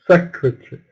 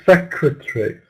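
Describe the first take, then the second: Both takes have the same delivery.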